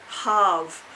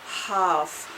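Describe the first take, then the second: No difference in how they are said.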